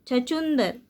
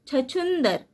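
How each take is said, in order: The two takes are said the same way.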